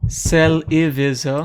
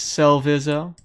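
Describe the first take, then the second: First: A vowel is sounded between the l and v. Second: No vowel is sounded between the l and v. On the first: This is the form used on the tournament bracket. "for the tournament bracket ... it's Celivizo" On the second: This is the form most people use online. "doesn't have this I here, so it's Celvizo, which is how most people pronounce it"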